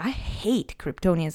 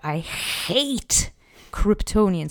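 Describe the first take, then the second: First: It is said plainly, without strong emotion. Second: It is said with intense, barely held emotion.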